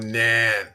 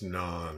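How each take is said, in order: First: It is said with an Americanized vowel. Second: It is said with the more authentic vowel. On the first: "I like the traditional ugly American pronunciation of stuff" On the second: "it's non, of course"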